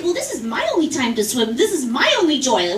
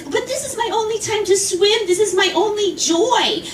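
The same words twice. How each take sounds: First: Mocking echo. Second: Put-on higher, pleading old-woman whine. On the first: Swimmer to the woman, a flat mocking echo. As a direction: throw her line back at her dryly. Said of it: "I said". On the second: Woman to the swimmer, a higher pleading whine. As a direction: beg for her pool time with a whine. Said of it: "She says".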